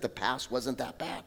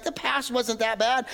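First: Lower, softer "the past wasn't that bad." dropped low; quiet aside. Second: Higher, wistful, dreamy sigh on "The past wasn't that bad."; mock nostalgia. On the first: Shown as a demonstration. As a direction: murmur "the past wasn't that bad." almost to yourself. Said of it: "the enemy's great work is to remind us that". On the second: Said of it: "we reminisce, like".

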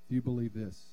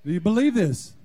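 First: Said in the usual way. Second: Emphatic repeat. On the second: Acted. Pastor repeats the question louder.

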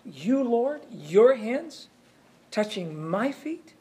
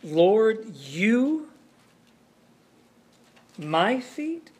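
First: Higher, incredulous Peter; preacher voicing Peter's shock at Jesus washing his feet; shocked protest. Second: Preacher acting out Peter's shocked question to Jesus; shocked disbelief. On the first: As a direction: pitch rising in disbelief, slower on the last words. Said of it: "the shock of this thing". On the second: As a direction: voice climbing in disbelief at the last words. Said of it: "that he's arguing".

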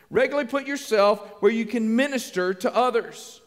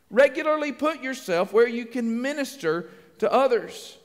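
First: Said in the usual way. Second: Slower, spaced-out delivery of a key point; slow emphatic repeat. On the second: Shown as a demonstration. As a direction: repeat it deliberately, phrase by phrase.

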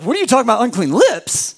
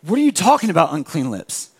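First: Our own disbelief. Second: God gently questions the shame; God's gentle disbelief. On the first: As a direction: throw the words back at God. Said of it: "And we're like". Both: Retold or imitated.

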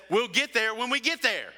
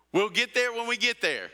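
First: A hint of an exasperated dad, pitched higher; dad brushing it off. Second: Lightly voiced cartoon dad, pitched higher; Mister Incredible. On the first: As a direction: toss it off like a tired dad at the wheel. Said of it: "And Dad says". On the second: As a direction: quote the movie dad with a wink. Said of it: "Like Mister Incredible".

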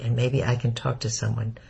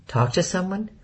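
First: Said in the usual way. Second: Puzzled echo. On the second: A narrator's reading. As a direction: Talk to someone? rising high on to, puzzled. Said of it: "Corey looked puzzled".

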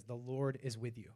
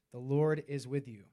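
First: Said in the usual way. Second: "The Lord is with you" restated louder, firmly; emphatic repeat. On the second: Shown as a demonstration. Preacher repeats the verse to the congregation, emphatically. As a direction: land "The Lord is with you" with more weight.

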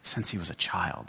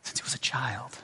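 First: Pained father, voiced low. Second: Whispered, the words barely breathed; soft whispered echo. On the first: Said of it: "with great pain in his voice". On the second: Shown as a demonstration. Preacher echoes the father's grief, in a whisper. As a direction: let it fall to a hush.

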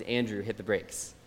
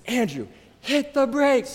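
First: Calm. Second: High, slow, shrieking Andrew, hit the brakes; panicked mom screaming at her son; retold scream. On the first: Retold or imitated. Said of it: "my mom looks over at me very calmly and says". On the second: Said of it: "She screams at me".

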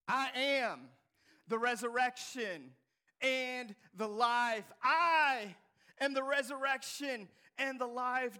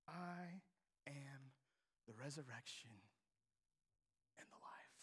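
First: Loud and slow, every word weighted; bold declaration. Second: Soft, low whisper fading out; hushed declaration. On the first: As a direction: proclaim it with full force. Repeated loudly after whisper. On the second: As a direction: breathe the words almost to nothing. First take, hushed. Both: Shown as a demonstration.

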